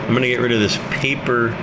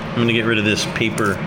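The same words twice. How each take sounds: The two takes are said the same way.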